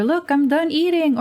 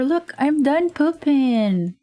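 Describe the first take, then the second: First: Put-on high proud little kid voice; child voice. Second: Put-on high, slow little kid voice; child voice. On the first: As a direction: announce it like a small child. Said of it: "It's either". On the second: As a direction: drawl it out like a proud toddler.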